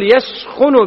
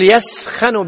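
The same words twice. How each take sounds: First: The kh is followed by a u vowel. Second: The kh is followed by an a vowel. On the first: "بضم الخاء" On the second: "بفتح الخاء"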